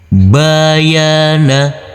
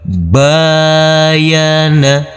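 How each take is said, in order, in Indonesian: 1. Semua vokal dibaca pendek. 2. Vokal pertama dibaca panjang. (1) "Kita baca pendek semuanya" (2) "Di sini yang kita baca panjang yaitu di huruf ba"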